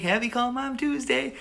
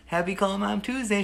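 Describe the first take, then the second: First: Much higher, changed voice as mom; imitating mom. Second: Said in the usual way. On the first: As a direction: sing it back like mom would. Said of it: "She'd be like". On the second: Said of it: "I would call you".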